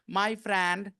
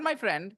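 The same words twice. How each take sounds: First: The vowel in friend is twisted, not short e. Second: The vowel in friend is a plain short e. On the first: The speaker calls it wrong. "I've seen a lot of them doing this" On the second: The speaker calls it right. "friend में भी वही A है"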